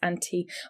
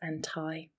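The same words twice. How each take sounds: First: It is said in a British accent. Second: It is said in an American accent. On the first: "both pronounced anti" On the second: "in American English, anti with an I might be pronounced anti"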